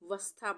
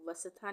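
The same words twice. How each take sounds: First: The s is half, joined to the next sound. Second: The s is said as a full syllable. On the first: The speaker calls it right. "आधा सा का उच्चारण आ रहा है" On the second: The speaker calls it wrong. "वस्था नहीं आ रहा है"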